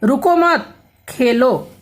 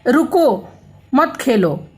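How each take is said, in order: First: रुको मत run together, a break, then Khelo; pause after मत. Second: रुको on its own, clear break, then मत खेलो; pause after रुको. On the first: Teacher shows children the second sentence, slowly, pausing after मत. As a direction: say "रुको मत" as one slow phrase, stop, then "Khelo". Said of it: "दूसरे में". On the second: Teacher shows children how a comma changes meaning, pausing after रुको. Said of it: "विराम चिन्हों के कारण अर्थ परिवर्तन हो जाता है". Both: Shown as a demonstration.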